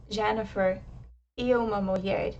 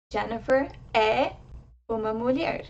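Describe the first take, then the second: First: E as a closed ee before uma mulher; unaccented e. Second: É as an open eh before uma mulher; accented é. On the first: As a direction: say e lightly as ee, linking into uma. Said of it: "And conversely, if you say". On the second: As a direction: open and stress é as eh. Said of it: "I'll pronounce them for you now". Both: Shown as a demonstration.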